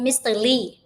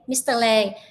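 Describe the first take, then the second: First: The surname is said with the vowel 'lee'. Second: The surname is said with the vowel 'lay'. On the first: "majority of people call him Mister Lee" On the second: "Mister Lei is the correct pronunciation of his last name"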